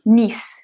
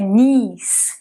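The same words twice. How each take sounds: First: The vowel is short. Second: The vowel is long. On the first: The speaker calls it wrong. "Não é simplesmente knees" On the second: The speaker calls it right. "é knees"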